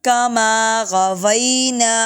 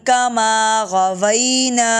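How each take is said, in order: No difference in how they are said.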